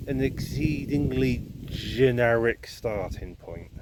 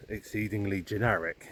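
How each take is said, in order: First: "exceedingly generic" drawn out slowly, each word leaned on; stress on exceedingly generic. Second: Said in the usual way. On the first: Shown as a demonstration. Slow deliberate emphasis on "exceedingly generic". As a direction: walker pressing the point about Wikipedia, stressing "exceedingly generic". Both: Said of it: "I do emphasise the word exceedingly generic".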